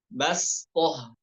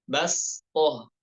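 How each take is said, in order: No difference in how they are said.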